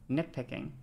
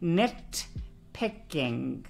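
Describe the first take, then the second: First: The T sound is mostly skipped. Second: The T sound is clearly pronounced. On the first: "I might like skip the T a little bit" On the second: "Maybe I can enunciate a little fucking harder for you"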